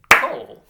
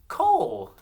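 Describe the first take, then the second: First: Cole as one very loud, high beat; clapped syllable. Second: Cole very high and loud; high, loud Cole, falling at the end; name called out. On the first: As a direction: clap out Cole in a single hit. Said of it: "Let's clap it". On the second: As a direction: call out Cole for the class to echo. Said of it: "say this name with me". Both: Shown as a demonstration.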